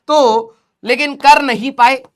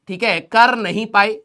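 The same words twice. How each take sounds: First: कर नहीं पाए slow and louder, weight on कर; stressed कर. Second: Said in the usual way. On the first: Real, not acted. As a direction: lean on कर, drawn out. Stressing students' failure. (कर पर ज़ोर देकर धीरे)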